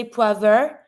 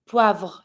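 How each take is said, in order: First: "poivre" wrongly as pwa-ver, vowel between V and R; split V R. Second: "poivre" as pwavr, one syllable, falling; joined V R. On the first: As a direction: break up the end of "poivre" into a rising -ver. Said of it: "don't say poivre". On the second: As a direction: run the V straight into a French R in "poivre". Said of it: "connect all of the consonant together". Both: Shown as a demonstration.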